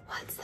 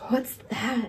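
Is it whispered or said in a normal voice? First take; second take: whispered; normal. First: It is whispered, like a secret. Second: It is said in a normal voice.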